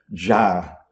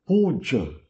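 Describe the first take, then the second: First: "ja" with a long open a; Sanskrit pronunciation. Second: "Puja" with a short final a, poo-jah; Hindi pronunciation. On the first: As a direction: stretch the a in "ja" as in Sanskrit. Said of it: "em sânscrito é ja". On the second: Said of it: "Como é que se pronuncia em hindi?". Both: Shown as a demonstration.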